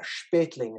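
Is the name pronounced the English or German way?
German. The name has a German pronunciation. The speaker calls it right. "is how it really should be pronounced"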